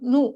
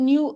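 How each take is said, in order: First: No y glide comes before the vowel. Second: A y glide comes before the vowel. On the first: "American இங்கிலீஷ்ல நூ அப்படின்னே pronounce பண்ணுவாங்க" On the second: "British இங்கிலீஷ்ல நியூ அப்படி pronounce பண்ணுவாங்க"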